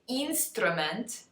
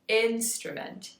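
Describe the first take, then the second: First: The first vowel is a tense 'ee' sound. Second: The first vowel is a short lax 'ih' sound. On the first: The speaker calls it wrong. "we would not say" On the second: The speaker calls it right. "We would say I"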